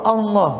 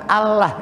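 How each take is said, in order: First: The vowel after the l sounds like 'o'. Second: The vowel after the l sounds like 'a'. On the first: The speaker calls it right. "Sebetulnya sih pakai O" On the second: The speaker calls it wrong. "bukan Allah ya"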